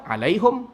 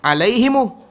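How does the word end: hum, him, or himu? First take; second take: hum; himu. First: The word ends in a closed 'hum' sound. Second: The word ends open, with an extra 'u' vowel. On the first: One group of Arabs reads it this way. "Satu orang baca alaihum" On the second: A group that finds closing the mouth hard reads it this way. "Satu orang baca lagi alaihimu"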